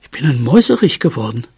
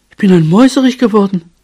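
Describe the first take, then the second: First: Said in the usual way. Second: High, fast burst of delight; thrilled, high-pitched little cry; excited exclamation. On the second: A narrator's reading. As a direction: exclaim it in a raised, rushing voice. Transformed mouse exclaims it again.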